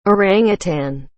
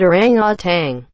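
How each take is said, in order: First: Said in the usual way. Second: ORANGUTAN ending in "tang"; common mispronunciation. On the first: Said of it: "There is no G at the end". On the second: Retold or imitated. Zoo worker quoting the guests, mispronounced with final g. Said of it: "almost everyone I meet pronounces it".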